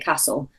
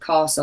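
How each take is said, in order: First: It is said with a Midlands English vowel. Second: It is said with a Southern English vowel. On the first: "I would say castle" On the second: "in the Midlands we've got sort of different vowel sounds to a Southern accent... instead of castle"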